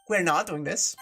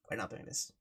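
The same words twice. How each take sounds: First: Said in the usual way. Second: Muttered low under the breath. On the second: Real, not acted.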